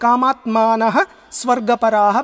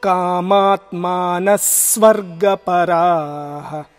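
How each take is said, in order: First: The first word ends in a breathy h sound. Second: The first word ends in an s sound.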